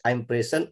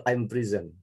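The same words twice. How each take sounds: First: "present" as PREZ-en, open first e; noun-style pronunciation. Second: "prison" as pri-ZEN, i first; verb-style pronunciation. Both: Shown as a demonstration. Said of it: "which is correct?".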